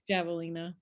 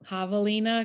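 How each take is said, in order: First: The word begins with a J sound. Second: The word begins with an H sound. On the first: This is the English way of saying it. "in English, javelina probably" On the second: This is the Spanish way of saying it. "if you say it like in Spanish, it's javelina because the J is like the H"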